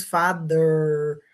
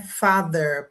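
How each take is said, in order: First: Father said with a Portuguese D sound, "fade"; Portuguese-style father. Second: Father said the English way, first vowel open like "fah". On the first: Teacher shows students the Portuguese-influenced mistake. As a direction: say father the way a Brazilian reading it would. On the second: Teacher models English pronunciation for Brazilian students. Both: Shown as a demonstration. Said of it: "Porque o som do português".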